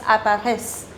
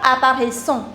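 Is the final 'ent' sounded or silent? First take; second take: silent; sounded. First: The final 'ent' ending is left silent. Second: The final 'ent' ending is pronounced aloud. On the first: The speaker calls it right. "it's apparaissent" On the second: The speaker calls it wrong. "you don't pronounce E N T at the end. So it's not apparaissent"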